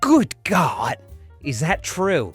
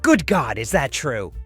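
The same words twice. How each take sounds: First: It is said in a very dramatic way. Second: It is said in a plain, ordinary way.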